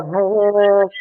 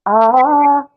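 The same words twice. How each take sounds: First: Sung, imitating a friend missing the note; sustained "ah" sung off pitch; sung, a non-singer's failed attempt to match a note; sung, off-key note. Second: Sung, a clear sustained "ah" on the note; demonstrating a held singing note. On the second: Shown as a demonstration. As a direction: sing "ah" as a pitch to match. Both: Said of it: "Why can't you hear the note?".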